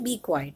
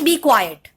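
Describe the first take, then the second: First: It is said in a calm, neutral tone. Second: It is said in an annoyed, angry tone. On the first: It is a plain statement without strong feeling. "Normal तरीके से बोला" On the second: The speaker is annoyed and exasperated. "मैं थोड़े गुस्से में बोल रही हूँ क्योंकि मैं अनॉयड हूँ थोड़ी"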